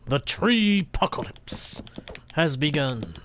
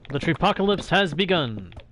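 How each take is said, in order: First: It is said in a formal manner. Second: It is said in a casual manner.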